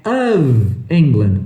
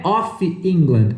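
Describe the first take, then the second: First: Slow, "of" said as "av" with a voiced v; "of" with a V sound. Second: "of" said as "ófi", an open o and a hard f; wrong "of" with an F. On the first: Teacher correcting the students, "of" slowly with a V sound. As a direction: stretch it out, "av England". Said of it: "não é ... é of England". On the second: Teacher showing students the common mistaken "of". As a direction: give the mistaken "of" with an f sound. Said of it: "não é of England". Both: Shown as a demonstration.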